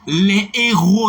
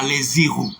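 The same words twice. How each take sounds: First: No linking sound joins les to héros. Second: A linking z sound joins les to héros. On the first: The speaker calls it right. "La lettre H ne se prononce pas" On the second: The speaker calls it wrong.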